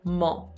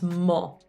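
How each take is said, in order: First: The vowel is a rounded 'o' sound. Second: The vowel is a rounded 'o' sound.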